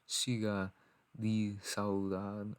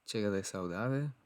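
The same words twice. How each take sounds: First: The title is said with guttural Portuguese pronunciation. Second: The title is said with Spanish pronunciation. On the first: The speaker calls it right. "somebody told me that it's like ... very guttural in pronunciation" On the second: The speaker calls it wrong. "if this was Spanish, I'd say"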